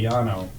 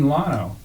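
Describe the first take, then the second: First: The name begins with a Y sound. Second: The name begins with an L sound. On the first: It follows the Spanish pronunciation. "I'll say Yano" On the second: It follows the local English pronunciation. "oh, you mean Lano?"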